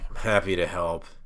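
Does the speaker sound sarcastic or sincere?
sarcastic. It sounds sarcastic and unwilling.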